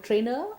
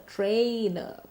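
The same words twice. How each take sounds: First: The vowel is short, with no glide. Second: The vowel is long, gliding toward ee. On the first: The speaker calls it wrong. "I'm not a trainer" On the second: The speaker calls it right. "Remember to stretch this sound"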